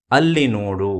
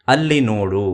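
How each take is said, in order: Both takes have the same delivery.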